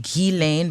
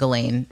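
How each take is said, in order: First: The name is pronounced the French way. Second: The name is pronounced the English way. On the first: "if you were really trying to speak it in French" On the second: "just saying Ghislaine for our purposes is fine"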